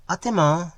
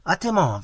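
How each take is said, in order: First: Bright answering call. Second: Cheerful call over the shoulder. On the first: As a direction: call back to him loudly. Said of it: "she cried". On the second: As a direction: call back loudly across street. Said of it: "calling back". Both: A narrator's reading.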